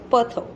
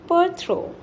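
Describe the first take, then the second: First: No R sound follows the T sound. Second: An R sound follows the T sound. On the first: The speaker calls it right. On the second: The speaker calls it wrong.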